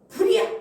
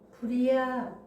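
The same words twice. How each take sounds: First: It is shouted loudly. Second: It is said quietly and calmly.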